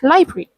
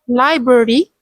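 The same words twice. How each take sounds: First: The middle syllable is dropped, leaving two. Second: All three syllables are pronounced fully. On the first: "people say it as library" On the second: "Instead of library"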